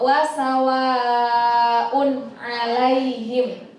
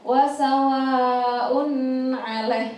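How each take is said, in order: First: The n sound is short and clearly pronounced. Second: The n sound is lengthened with a nasal hum. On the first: The speaker calls it right. "harus dibaca dengan jelas" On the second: The speaker calls it wrong. "dipanjang di maksudnya didengin gitu loh. Jadi kan apa namanya salah"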